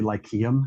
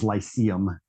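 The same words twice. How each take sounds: First: The word is pronounced in an ancient Greek style. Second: The word is pronounced in an anglicized English way. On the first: It follows the original ancient language. "I actually like to say Lyceum because that actually is like the, the ancient Greek version" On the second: It follows the standard English dictionary form. "the dictionary says Lyceum uh, is how you pronounce it"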